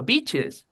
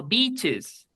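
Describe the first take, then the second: First: BEACHES with short lax ih, as bitches; short i, mistaken. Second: BEACHES with a stretched, tense ee; long i, corrected. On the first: Retold or imitated. Teacher quoting his classmate's bad word, short i. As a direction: imitate the slip, quick vowel in BEACHES. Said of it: "dijo una mala palabra". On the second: Shown as a demonstration. Teacher correcting his classmate's slip, long i. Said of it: "no beaches".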